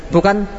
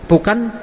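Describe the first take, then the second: No difference in how they are said.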